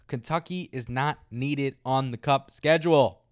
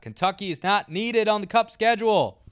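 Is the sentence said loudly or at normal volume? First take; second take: normal; loud. First: The sentence is said at normal speaking volume. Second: The sentence is said at a much louder volume.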